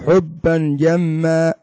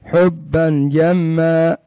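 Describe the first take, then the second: No difference in how they are said.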